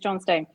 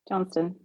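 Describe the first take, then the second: First: The name is split into two separate words. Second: The name runs together quickly as one word. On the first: "I'm sure it is John Stone" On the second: "pronounce that with a bit faster"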